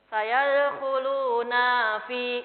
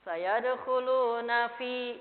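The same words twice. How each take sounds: First: The vowel of 'na' is drawn out long. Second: The vowel of 'na' is short and direct. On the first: The speaker calls it wrong. "Jadinya dibaca panjang" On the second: The speaker calls it right. "Langsung ya"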